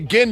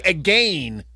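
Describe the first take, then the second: First: The last syllable rhymes with 'ten'. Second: The last syllable rhymes with 'gain'. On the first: "I don't say again no more" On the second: "I say again. What are we gaining?"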